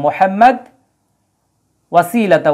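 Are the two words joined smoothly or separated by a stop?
separated. A stop comes after the first word, no n sound. "যদি আমরা এইভাবে থামি"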